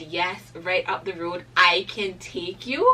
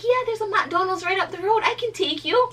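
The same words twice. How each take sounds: First: "I can take you" slowed right down and louder; emphatic repeat. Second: Very high, loud mimicked helper; excited offer. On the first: Retold or imitated. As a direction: savour every word of "I can take you". Repeats the offer slowly for emphasis. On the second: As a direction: squeal it like an eager rescuer. Retells stranger's welcome offer of lift.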